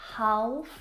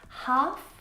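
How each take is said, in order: First: The L sound is pronounced. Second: The L sound is not pronounced. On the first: The speaker calls it wrong. "not half" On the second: The speaker calls it right. "have a silent letter L in them"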